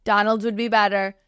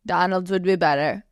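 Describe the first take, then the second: First: Barely-there impression of a famous businessman-president; lightly voiced Trump, hands-out confident pitch; a faint hint of Trump's cadence; Donald Trump impression. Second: Weak Trump impression, tune rising at the end; second take, a touch more Trump lilt; Donald Trump impression, second try. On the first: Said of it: "I have such a bad impression of him". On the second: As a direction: repeat it with a lift on "be", lightly mimicking Trump. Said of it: "I don't have a really good voice".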